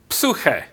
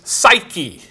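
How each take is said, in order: First: It is said with a different, non-English pronunciation. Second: It is said with the everyday English pronunciation. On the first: "I was taught to pronounce that" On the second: "if you were to pronounce it in English the way we do"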